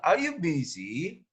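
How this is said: It is said with a questioning intonation. The speaker calls it right. "Harus menanyakan"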